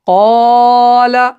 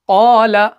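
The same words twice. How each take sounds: First: The long vowel is stretched out far too long. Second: The long vowel is held for about two counts. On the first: The speaker calls it wrong. "हम ऐसे नहीं पढ़ेंगे ... ज्यादा नहीं खींचना है" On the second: The speaker calls it right. "दो सेकंड तक हम इसको खींचते हैं"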